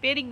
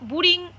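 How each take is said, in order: First: The first vowel sounds like 'e' in 'bed'. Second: The first vowel sounds like 'oo' in 'book'. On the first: The speaker calls it right. "এটার উচ্চারণ হচ্ছে বেরিং" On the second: The speaker calls it wrong. "এটা বুরিং pronunciation করবে না"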